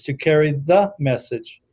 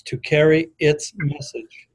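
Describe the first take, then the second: First: "the" said with deliberate weight; stress on "the". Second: "its" slowed and set apart; stress on "its". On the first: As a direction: lean on the word "the" before "message". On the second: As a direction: lean deliberately on the word "its". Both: Shown as a demonstration. Contrasting two wordings of tradition.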